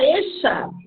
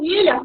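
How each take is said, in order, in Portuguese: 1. Ela é pronunciada com a pronúncia argentina. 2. Ela é pronunciada com a pronúncia do espanhol da Espanha. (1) "fala eixa" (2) "o argentino não fala ilha"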